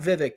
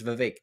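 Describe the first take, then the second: First: The name is said with an R sound. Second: The name is said without an R sound. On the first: The speaker calls it wrong. "you kept pronouncing it with an R in it" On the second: The speaker calls it right. "It's Vivek"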